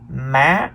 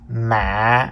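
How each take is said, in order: First: The pitch rises high on the syllable. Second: The pitch is low with a break. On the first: "The third tone is the high rising tone" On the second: "the low broken tone"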